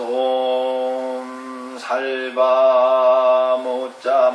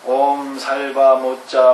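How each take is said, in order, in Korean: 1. 이 구절은 느리게, 길게 끌어서 말합니다. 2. 이 구절은 빠르게 말합니다. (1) "이렇게 길게 끌었다" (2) "이거 좀 빨리 해서 그렇죠?"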